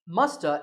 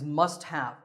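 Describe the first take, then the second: First: The two words blend into one reduced form. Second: Both words are said fully and separately.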